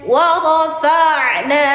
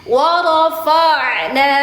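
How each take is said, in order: No difference in how they are said.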